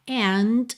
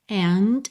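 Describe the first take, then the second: First: The final D is clearly released. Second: The final D is clearly released.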